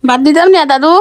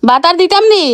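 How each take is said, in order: First: Calling out loudly to grandpa; raised voice so he can hear; to someone hard of hearing. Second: Louder and higher repeat; to someone hard of hearing. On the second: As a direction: shout the question again, higher. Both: Real, not acted. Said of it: "এই জন্য চিল্লাই চিল্লাই কথা বলা লাগে".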